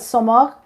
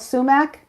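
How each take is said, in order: First: The word is said with the speaker's home pronunciation. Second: The word is said with the common English pronunciation. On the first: This is how the speaker's own community says it. "That's how we pronounce it" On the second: This is the name most people know it by. "but um, it's called sumac"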